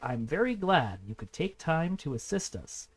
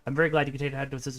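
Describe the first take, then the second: First: It is read very slowly. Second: It is read very fast.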